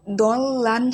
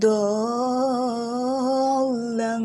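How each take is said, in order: First: দল লান with plain clear n, no nasal hum; wrong take without nasal. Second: দল লাং with the n turned into a long humming nasal ng; ghunna on the nasal. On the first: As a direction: say দল লান with a clean unnasalised n. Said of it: "দল লান হবে না". (নাকি সুর ছাড়া দল লান) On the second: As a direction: stretch দল লাং slowly, humming the nasal through the nose. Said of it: "এটা হবে". (দল লাং, লম্বা গুন্নাহ সহ) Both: Shown as a demonstration.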